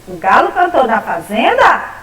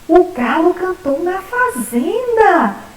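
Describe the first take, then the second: First: It is said as a question. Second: It is said as an excited exclamation.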